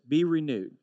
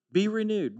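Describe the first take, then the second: First: Said in the usual way. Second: "Be renewed" lifted high and pressed on "Be"; stressed repeat, high. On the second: Shown as a demonstration. Pastor pleading with congregation, "Be" pitched high and stressed.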